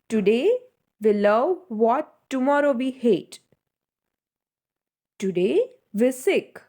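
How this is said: A strong pause separates the two sentences. The speaker calls it right. "between this all the sentence, we just posed ourselves"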